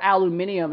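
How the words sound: The word is said with five syllables. This is the British form. "Or aluminium if you're British"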